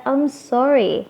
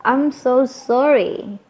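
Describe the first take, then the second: First: "I'm sorry" higher-pitched, shorter, falling at the end; maaf biasa. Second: "I'm so sorry" higher and slow, "so sorry" stretched out; penekanan lebih. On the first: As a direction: say "I'm sorry" as a simpler apology with a falling tune. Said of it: "bisa lihat sendiri nih perbedaannya". ("I'm sorry" lebih singkat, nada naik lalu turun) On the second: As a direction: lean hard on "so sorry" as a sincere apology. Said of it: "benar-benar kita lebih menekankan lagi". ("I'm so sorry" dengan nada tinggi, panjang dan ditekankan) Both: Shown as a demonstration.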